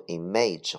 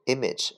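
First: Image misread as im-AYJ; mispronunciation demo. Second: Image said IM-ij, stress up front; correct pronunciation. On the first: Teacher warns students how not to read it, image mispronounced im-AYJ. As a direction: say image with a long "ay" in the second syllable. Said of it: "不读image或者image". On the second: Teacher shows students how the word is read, image pronounced correctly as IM-ij. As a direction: say image with a short, unstressed second syllable. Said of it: "请注意这个单词的读音". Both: Shown as a demonstration.

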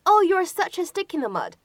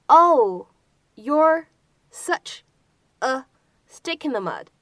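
First: Said in the usual way. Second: Each word set apart by pauses, stick in the mud kept together; word-by-word model. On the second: Shown as a demonstration. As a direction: break the sentence into slow separate pieces for learners. Teacher breaks sentence into pieces. (逐词慢速示范)

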